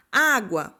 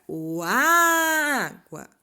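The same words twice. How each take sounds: First: Said in the usual way. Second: "água" called out with the first A held very long; long, high first A in "água"; calling out stressed syllable. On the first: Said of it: "Qual é a sílaba tônica de água?". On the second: Shown as a demonstration. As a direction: call out "água", stretching its opening A. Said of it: "Você vai chamar a palavra".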